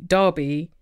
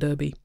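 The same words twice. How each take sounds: First: The word is said with a British pronunciation. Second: The word is said with a non-British pronunciation. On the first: This is how a Brit says the word. "As a Brit, of course, I pronounce the word derby" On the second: This is how the word is said within the sport. "within the sport it's more likely to be pronounced roller derby"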